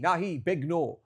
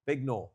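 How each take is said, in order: First: Big no said louder and higher, insistent; firm louder refusal. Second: Said in the usual way. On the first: Shown as a demonstration. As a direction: push them away with a loud big no. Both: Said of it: "You've gotta go".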